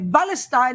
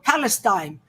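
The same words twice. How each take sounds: First: The word begins with a B sound. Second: The word begins with a P sound. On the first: "They pronounce it as B. So they say Palestine" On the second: "and not Palestine"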